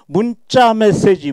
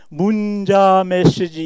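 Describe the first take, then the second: First: The second syllable is said with a tense consonant. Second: The second syllable is said with a plain consonant. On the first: It follows natural speech habit. The speaker calls it right. "언어 습관에 따라서 문자라고 발음을 합니다" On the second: It follows the written letters. The speaker calls it wrong. "이렇게 발음하는 사람 하나도 없어요"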